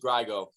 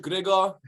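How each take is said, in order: First: The name is pronounced with English sounds. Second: The name is pronounced with Polish sounds. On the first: This is how everyone else says it. "and everybody else" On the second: This is how Polish speakers say it. "in Polish"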